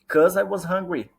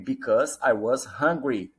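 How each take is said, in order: First: The first word is shortened to cause. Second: The first word is said in full as because. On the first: "E mais rápido, né, linguagem formal das ruas, você pode falar cuz ou cause" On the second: "Fala-se because também"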